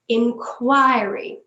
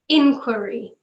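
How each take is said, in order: First: The stress is on the second syllable. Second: The stress is on the first syllable. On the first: This is the British form. "With the British one, we put it just before the Q" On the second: This is the American form. "you put the stress at the start"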